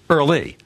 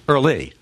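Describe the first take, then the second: No difference in how they are said.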